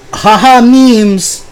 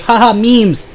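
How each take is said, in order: First: Much higher, louder goofy mock laugh-talk; mocking Vander. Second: Much higher goofy mock voice; mocking Vander. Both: Imitating his roommate's stale meme jokes, high and goofy. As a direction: parody a cringey meme guy.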